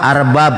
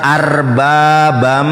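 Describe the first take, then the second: First: The word ends abruptly on a plain b. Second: The word ends with a nasal am sound. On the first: The speaker calls it wrong. "Mana ada itu dibaca arbab?" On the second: The speaker calls it right. "dibacanya idgham biguna"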